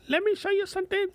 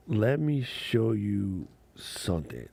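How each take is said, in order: First: Very high, fast cartoon squeak; high chipmunk voice, quick; squeaky high voice. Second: Said in the usual way. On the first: Shown as a demonstration. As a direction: jump way up into a tiny squeaky voice. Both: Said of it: "repeats in a put-on voice".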